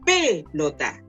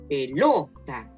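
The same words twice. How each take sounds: First: The stress is on the first syllable. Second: The stress is on the middle syllable. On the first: The speaker calls it wrong. "Si fuera en la, en la antepenúltima diría" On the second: The speaker calls it right. "Si fuera en la penúltima diría"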